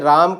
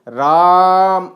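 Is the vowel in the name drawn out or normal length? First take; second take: normal; drawn out. First: The vowel is said at normal length. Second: The vowel is stretched out about three times longer.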